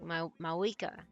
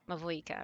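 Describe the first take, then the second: First: The second consonant is a W sound. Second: The second consonant is a V sound. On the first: The speaker calls it right. "with a W sound" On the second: The speaker calls it wrong. "I keep saying with a V"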